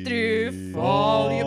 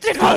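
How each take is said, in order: First: It is said in a normal speaking voice. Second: It is screamed in a heavy metal style.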